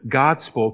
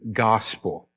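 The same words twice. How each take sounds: First: A d sound is heard before the s. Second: No d sound is heard before the s. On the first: This is the older form of the word. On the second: This is the later form of the word.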